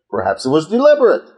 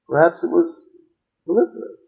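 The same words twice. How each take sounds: First: It is said in a confident, knowing way. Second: It is said in a tentative, uncertain way. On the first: The speaker already knows the answer. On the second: The speaker is only guessing at the answer.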